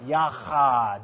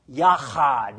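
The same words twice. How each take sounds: First: Yachad repeated with a throaty ch; throaty Hebrew ch. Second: Yachad with a rasping ch, yah-KHAHD; throaty Hebrew ch. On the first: Pastor repeating the word for the church. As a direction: rasp the ch in Yachad once more. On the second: Pastor showing the guttural sound. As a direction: rasp the ch in Yachad. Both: Shown as a demonstration. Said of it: "clear your throat again".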